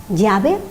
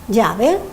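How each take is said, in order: No difference in how they are said.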